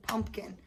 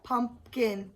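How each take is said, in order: First: Said in the usual way. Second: "Pumpkin" in two separate beats; broken into syllables. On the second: Shown as a demonstration. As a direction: split "Pumpkin" cleanly: pump, then kin. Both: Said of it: "he broke it into two parts".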